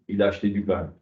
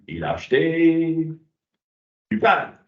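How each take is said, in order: First: It is said as a flat, neutral statement. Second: It is said with marked, exclamatory intonation. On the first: It simply reports a fact. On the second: There is an extra hidden meaning to grasp.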